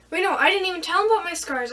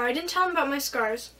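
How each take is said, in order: First: Sudden correction. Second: Said in the usual way. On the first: Real, not acted. Catches her own memory slip.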